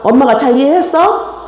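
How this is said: It is asked in an angry, scolding tone. The mother is angry and scolding the child. The speaker calls it wrong. "아이를 혼내는 엄마가 화가 났다"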